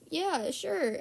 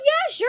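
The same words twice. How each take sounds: First: It is said in a reluctant, unwilling tone. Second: It is said in an eager, willing tone. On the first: The person does not really want to do it. "The tone of my voice... that should have been your sign" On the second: The person really wants to do it. "I wasn't like, oh"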